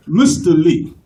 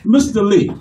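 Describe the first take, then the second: First: Put-on lower, stately African accent; dignified African accent. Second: Italian-American caller's greeting; Italian-American accent. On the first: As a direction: greet formally with an African accent. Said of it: "they so dignified and eloquent". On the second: Acted. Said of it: "Italians are fun to talk to".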